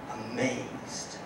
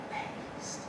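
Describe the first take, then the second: First: Said in the usual way. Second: A soft, almost silent repeat of Amazed; whispered echo. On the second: Real, not acted. Stunned after the lunch.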